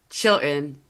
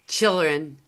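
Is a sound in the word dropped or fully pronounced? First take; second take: dropped; dropped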